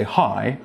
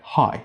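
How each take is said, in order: First: Hi with its rising tail kept; careful hi, ending on a rise; full rising ending. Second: Quick hi that falls and stops; rising ending cut. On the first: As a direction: let hi dip and come back up. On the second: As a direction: chop hi off at the bottom of the dip. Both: Shown as a demonstration. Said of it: "cut out the rising ending of the word".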